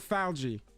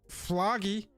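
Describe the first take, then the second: First: The name is said like 'falgy', rhyming with algae. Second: The name is said like 'floggy'. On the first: The speaker calls it right. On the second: The speaker calls it wrong.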